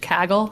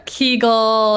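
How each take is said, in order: First: The word has an Australian vowel, like gaggle. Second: The word has an American vowel, like Kegel. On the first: The speaker calls it right. "in Australian English, Kaggle is unambiguously pronounced Kaggle" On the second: The speaker calls it wrong. "Americans will sometimes say Kegel"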